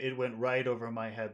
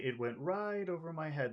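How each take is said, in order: First: The pitch drops low starting at 'right'. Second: The pitch stays high through 'right'. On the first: "that sounds serious" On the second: "that sounds kind of happy and friendly or easy"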